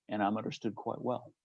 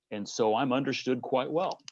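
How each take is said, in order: First: Softer, wry throwaway repeat of understood quite well; quiet knowing echo; dry quiet repeat. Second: Said in the usual way. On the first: Real, not acted. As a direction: drop the volume and let and I'm understood quite well land as a dry aside. Repeated line about being understood.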